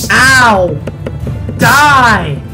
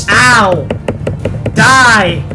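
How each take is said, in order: Both takes have the same delivery.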